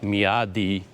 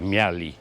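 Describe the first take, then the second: First: The D sound in the middle is clearly pronounced. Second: The D sound in the middle is dropped. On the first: "you do pronounce the D's, sort of like Meowdy" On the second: "when people speak really fast, they say Meowli"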